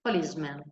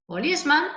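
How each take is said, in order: First: "Policeman" said with men at the end, plural; the plural, said as policemen. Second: "policeman" with a clear man sound, singular. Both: Shown as a demonstration. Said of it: "el plural es cambiando la A por la E".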